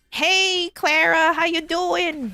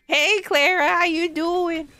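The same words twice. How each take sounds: First: Higher caricature of own greeting; mock version of own voice. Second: Higher, slow caricature of own greeting; mock version of own voice. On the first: The speaker caricatures her own greeting to Clara, higher. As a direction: send up your own voice, higher. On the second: The speaker repeats her self-caricature greeting to Clara, slower and high. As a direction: stretch it slow and high, mocking yourself. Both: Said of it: "my own interpretation of my voice".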